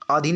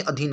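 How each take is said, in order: First: आधीन begun with long "aa"; wrong pronunciation. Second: अधीन begun with short "a"; correct pronunciation. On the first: Teacher rejecting a misspelling, आधीन said with a long first vowel. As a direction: say आधीन as "aa-dheen". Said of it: "नहीं अधीन होता है". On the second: Teacher giving the correct form, अधीन said with a short first vowel. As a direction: say अधीन as "a-dheen". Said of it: "अधीन होता है". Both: Shown as a demonstration.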